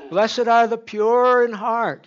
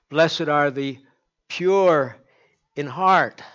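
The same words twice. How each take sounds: First: Higher, louder and slow, every word weighted; preacher at full force; climactic proclamation. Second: Loud, weighty verse with PURE lifted; preacher intoning the beatitude; solemn scripture reading. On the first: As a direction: build the verse to its peak. Climactic repeat of the verse. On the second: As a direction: proclaim it like a preacher. Scripture quoted with emphasis. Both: Acted.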